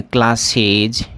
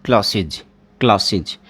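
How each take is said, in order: First: क्लासेज with an ez ending; the mistaken क्लासेज; wrong pronunciation. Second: क्लासेज with a short iz ending; teacher's corrected क्लासेज; right pronunciation. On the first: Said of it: "ये नहीं है क्लासेज". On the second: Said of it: "नहीं, क्लासेज". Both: Shown as a demonstration.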